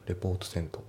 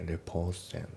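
First: The t at the end of report is pronounced. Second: The t at the end of report is dropped. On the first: The speaker calls it wrong. "report sent じゃなくて" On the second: The speaker calls it right. "report のt も抜けますね。"

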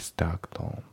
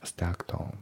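Both takes have the same delivery.

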